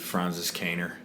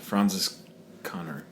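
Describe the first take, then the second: First: The name is said with an American accent. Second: The name is said with a German-style pronunciation.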